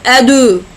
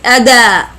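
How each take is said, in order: First: The d is followed by a u vowel. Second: The d is followed by an a vowel. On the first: "nor like dhamma, like adu" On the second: "not as fatha, like ada"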